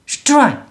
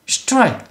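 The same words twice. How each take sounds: No difference in how they are said.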